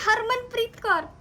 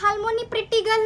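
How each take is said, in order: First: "हरमनप्रीत कौर" high and slow, with clear r sounds; corrective pronunciation. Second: "हालमोनी प्रिटी गर्ल" echoed high, Korean-style, l for r; mimicked mispronunciation. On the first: Retold or imitated. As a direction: spell it out slowly for a learner, "हरमनप्रीत कौर". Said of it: "No, हालमोनी प्रिटी गर्ल नहीं". (सही उच्चारण सिखाते हुए, धीरे से "हरमनप्रीत कौर") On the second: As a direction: throw back the garbled name "हालमोनी प्रिटी गर्ल" in a higher, louder voice. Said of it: "हरमनप्रीत कौर नहीं बोल रहा". (गलत उच्चारण की नकल, "हालमोनी प्रिटी गर्ल")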